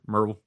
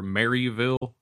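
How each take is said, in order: First: It is said the way local people say it. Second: It is said the way out-of-state people say it.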